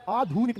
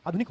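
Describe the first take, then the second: First: आधुनिक with a stretched "dhoo"; wrong pronunciation. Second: आधुनिक with a quick short "dhu"; said quickly. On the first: Teacher rejects the long vowel for students, drawn out. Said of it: "आधुनिक नहीं होता". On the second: Teacher shows the word is said quickly, short vowel. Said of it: "जल्दी से बोला जाता है". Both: Shown as a demonstration.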